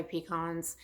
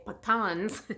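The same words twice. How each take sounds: First: "pecans" with a long open "kahns" ending, pih-KAHNZ; pecans said one way. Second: "pecans" with stress up front and a short flat ending, PEE-cans; pecans said another way. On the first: To viewers, showing one way people say it: "pecans" as pih-KAHNZ. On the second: To viewers, showing the other common way to say it: "pecans" as PEE-cans. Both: Shown as a demonstration. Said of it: "Some people say pecans".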